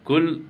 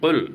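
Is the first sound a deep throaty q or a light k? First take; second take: light k; deep q. First: It starts with a light front k sound. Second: It starts with a deep back-of-throat q sound. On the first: The speaker calls it wrong. "കുൽ എന്നല്ല" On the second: The speaker calls it right. "ഖാഫ് പറയുമ്പോൾ ശ്രദ്ധിക്കണം"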